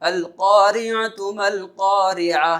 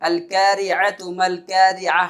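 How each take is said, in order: First: The q sound is heavy and deep. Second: The k sound is light and thin. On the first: The speaker calls it right. "क़ाफ को पुर पढ़ना है" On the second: The speaker calls it wrong. "अगर इसको हम यहाँ पर बारीक पढ़ा है"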